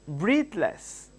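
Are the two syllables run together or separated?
separated. The two syllables are said separately. The speaker calls it right. "dividing the word into two sounds and then pronouncing it"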